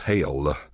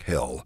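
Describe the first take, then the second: First: The vowel is drawn out like hail. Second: The vowel is short and plain.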